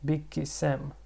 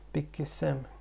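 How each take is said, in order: Both takes have the same delivery.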